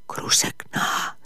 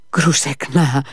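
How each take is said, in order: First: Slow hushed calling of a name; a soft, slow whisper of the name. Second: Raised call of the name. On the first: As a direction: call her name under your breath. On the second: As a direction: call her name out into the garden. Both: Acted. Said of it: "φώναξε".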